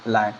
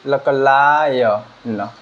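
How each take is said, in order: First: Said in the usual way. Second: लकलायन stretched out very slowly, sound by sound. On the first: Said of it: "तो ये क्या हो गया". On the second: Shown as a demonstration. Teacher slowly sounding out लायन for students. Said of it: "इसका उच्चारण क्या हुआ".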